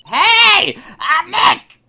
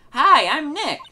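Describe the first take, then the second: First: Very high, full-volume yell; louder shout. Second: High, loud hello into a mic; chirpy character greeting. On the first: [name] retries the noise-triggered camera, shouting at full volume. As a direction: yell it hard to set off the mic. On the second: [name] tries out the camera's mic, high and loud. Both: Acted. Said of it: "Maybe I'm not saying it loud enough".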